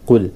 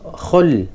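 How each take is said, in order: First: It begins with a deep throat k-like stop. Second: It begins with a raspy, friction kh sound. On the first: The speaker calls it right. "qaf, qaf, qul" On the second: The speaker calls it wrong. "bukan bukan apa, khul"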